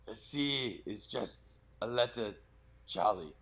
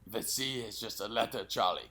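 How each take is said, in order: First: The line is said slowly in broken, feeble pieces. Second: The line is said at a quicker, smoother pace. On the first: The speaker calls it right. "talk a little more fragmented, a little slower" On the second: The speaker calls it wrong. "Like that?"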